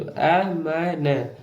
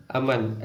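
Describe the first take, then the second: First: अ, म, न sounded out separately; letter by letter. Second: अमन blended into one word, softer; joined-up reading. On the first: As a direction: spell अमन aloud with a gap after each letter. (अ, म, न अलग-अलग बोलकर) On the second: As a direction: read अमन whole, letters run together. (अमन को जोड़कर एक शब्द में) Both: Shown as a demonstration. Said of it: "ऐसे पढ़ा जाता है".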